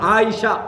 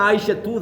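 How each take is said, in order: First: The word ends without a final t sound. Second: The word ends with a pronounced final tu. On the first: "அந்த தாவை சொல்ல மாட்டாங்க" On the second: "உண்மையா சொல்ல போனா ஆயிஷா தூ தான்"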